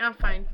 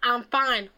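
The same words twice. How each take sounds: First: It sounds calm and genuinely okay. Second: It sounds curt and annoyed.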